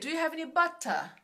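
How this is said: It is said in a British accent.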